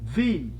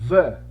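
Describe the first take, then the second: First: It uses the form said before a vowel. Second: It uses the form said before a consonant. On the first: The next word begins with a vowel. "se esse substantivo se iniciasse como uma vogal, ele vai ter o som de the" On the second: The next word begins with a consonant. "se inicia ... o substantivo com uma consoante, ... a pronúncia vai ser the"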